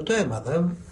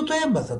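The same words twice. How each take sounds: First: Said in the usual way. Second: High, pressing "Το έμαθα" with the weight on "Το"; insistent reply. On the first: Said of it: "του λέω". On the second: Retold or imitated. Priest retelling how he insisted to the quarreling man, high "Το έμαθα". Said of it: "Του λέω".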